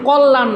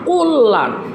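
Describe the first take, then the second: First: The l sound is said once, not doubled. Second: The l sound is doubled and held longer. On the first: The speaker calls it wrong. "এই জন্যে কল্যাণ না" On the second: The speaker calls it right. "এই লটা দুইবার উচ্চারণ হয়েছে"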